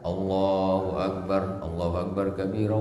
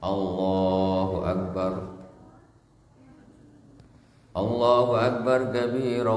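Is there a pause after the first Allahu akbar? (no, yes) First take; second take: no; yes. First: The two phrases run together without pause. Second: A brief pause separates the two phrases. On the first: The speaker calls it wrong. "Jadi tidak ... Tidak begitu" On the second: The speaker calls it right. "tidak langsung, berhenti sejenak"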